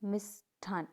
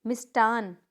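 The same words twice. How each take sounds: First: मिष्ठान parted, with aspirated "th"; correct pronunciation. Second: मिष्टान with unaspirated hard t; incorrect pronunciation. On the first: Teacher correcting the class, मिष्ठान with aspirated hard t. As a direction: say मिष्ठान as mish, thaan. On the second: Teacher showing a mistake, मिष्टान without breath after t. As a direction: say मिष्टान as mish-taan. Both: Shown as a demonstration. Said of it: "इस तरह से लिखा जाएगा".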